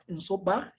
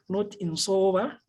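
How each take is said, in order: First: The middle consonant is a plain b. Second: The middle consonant is not a plain b. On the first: The speaker calls it right. "The B is is is is is uh, pronounced as B" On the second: The speaker calls it wrong.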